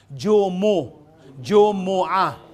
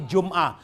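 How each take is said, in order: First: Jumu'a with a voiced u after m; correct pronunciation. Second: Jum'a with no vowel after m; wrong pronunciation. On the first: Teacher giving the correct word, three syllables. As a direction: spell out Jumu, then Jumu'a, syllable by syllable. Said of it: "ang correct na pronunciation". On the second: Teacher showing what to avoid, closed m. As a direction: say jum'a quickly in two syllables. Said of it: "ang correct na pronunciation ay hindi". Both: Shown as a demonstration.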